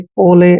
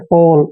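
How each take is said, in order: First: The word ends with an extra vowel sound. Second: The word ends with an L sound. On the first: The speaker calls it wrong. "इसको अक्सर पढ़ते हैं रोले मोले पोले, ऐसे नहीं पढ़ना है" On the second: The speaker calls it right. "ओ एल ई को ओल पढ़ना है"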